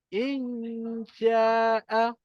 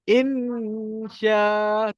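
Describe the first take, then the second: First: The sh sound spreads and is audibly released. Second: The sh sound is cut off abruptly. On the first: The speaker calls it right. "tetapi insya'a" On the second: The speaker calls it wrong. "bukan insya"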